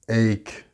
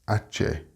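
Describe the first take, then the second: First: It is said the English way. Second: It is said like the Spanish word. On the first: The speaker calls it right. "It's ache" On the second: The speaker calls it wrong. "not pronounced ache, like the Spanish ache"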